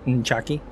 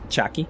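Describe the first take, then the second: First: The word starts with an N sound. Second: The word starts without an N sound. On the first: "if you want to say it like that" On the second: "I'm just not going to pronounce the N"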